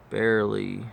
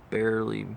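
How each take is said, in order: Both takes have the same delivery.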